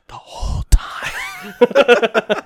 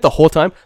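First: Very slow, high, breaking into laughter; gleeful retold answer. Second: Mock incredulous question. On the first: Boyfriend admits to his secret dance, drawn out and laughing. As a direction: stretch out each word, laughing. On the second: Boyfriend imitates girlfriend finding out about the dance, mock incredulous. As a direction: imitate her disbelief.

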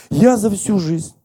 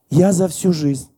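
The two takes are said the same way.

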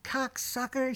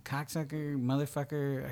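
First: Sharp high mock yell of the insult; retold yell. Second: Said in the usual way. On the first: Actress yelling at her co-star, mock yell. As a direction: spit out "Cocksucker!" high, as a yelled insult. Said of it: "She yells at him". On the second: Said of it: "we're sitting there going".

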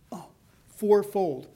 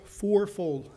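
First: "fourfold" drawn out slowly and weighted; slow stress on fourfold. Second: Said in the usual way. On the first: Shown as a demonstration. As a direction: linger on "fourfold" to let it sink in.

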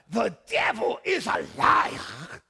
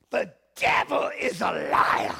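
First: Very slow, loud Sierra Leonean proclamation, drawn out; retry the line in a heavier Sierra Leone accent; a Sierra Leonean church friend rebuking the devil. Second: Slow, loud Sierra Leonean preacher's declaration; a Sierra Leonean friend declaring over the sick bed; Sierra Leonean accent. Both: Retold or imitated. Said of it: "so that's my best".

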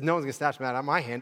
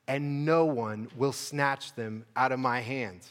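First: Quick, casual retelling of the verse; fast paraphrase. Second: Slow, weighty reading of the verse; slow scripture reading. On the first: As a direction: rattle it off in everyday words. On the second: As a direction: lay each word down slowly. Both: Shown as a demonstration. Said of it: "So Jesus says".

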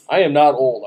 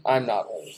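First: "I am" said in full, louder; emphatic denial. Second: Said in the usual way. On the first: Real, not acted. Insisting on not being old.

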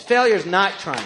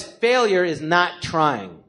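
First: Said in the usual way. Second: Failure is not trying, slowed right down with weight on failure; stress on failure. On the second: Shown as a demonstration. Comedian telling the interviewer his life lesson, slow and emphatic. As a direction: spell out the lesson slowly, leaning on failure.

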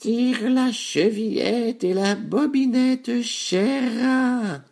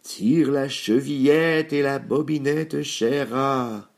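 First: Very high, slow, drawn-out granny voice; loud-edged, high-pitched old granny; grandmother. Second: Wolf faking a sweet granny voice, raised and slow; slow, higher put-on wolf voice; wolf softening his voice. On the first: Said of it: "répondit la grand-mère, qui était trop faible". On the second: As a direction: raise the pitch and coax slowly, as a disguised wolf. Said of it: "le loup en adoucissant sa voix". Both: A narrator's reading.

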